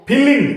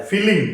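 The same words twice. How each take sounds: First: फीलिंग with a short fi and weight on l; फीलिंग said short, with the l stressed. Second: फीलिंग with the fi drawn long; फीलिंग with a long ee after f. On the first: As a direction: clip the fi of फीलिंग and lean on the l. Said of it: "रे पे जोर पड़ रहा है और एफ भी छोटा". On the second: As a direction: stretch the fi in फीलिंग. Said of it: "फी बड़ा आ रहा है". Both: Shown as a demonstration.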